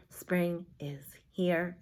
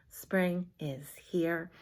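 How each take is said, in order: First: Soft slow whisper; hushed finger-play whisper. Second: Soft slow whisper; breathy hushed chant. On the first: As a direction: whisper the chant slowly. Whispered repeat of chant. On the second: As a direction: whisper it again, slowly. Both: Shown as a demonstration.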